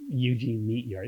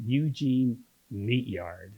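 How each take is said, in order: First: Said in the usual way. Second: Slow, drawn-out relish of the name; savouring the name. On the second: Real, not acted. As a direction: linger over each part of the name.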